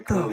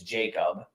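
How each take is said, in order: First: The name is said following its written letters. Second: The name sounds like the English name Jacob. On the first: The name is read as it is spelled. "I'm gonna call it" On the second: This is thought to be the actual pronunciation. "I think it's Jacob"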